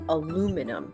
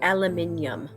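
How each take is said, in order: First: The word is said in an American accent. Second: The word is said in a British accent. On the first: "And in the American accent, we call it aluminum" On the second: "In the British accent, they call it aluminium"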